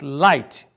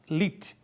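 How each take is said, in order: First: The vowel is an eye diphthong. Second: The vowel is a plain ee sound. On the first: The speaker calls it right. "mas light" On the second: The speaker calls it wrong. "não falamos lit"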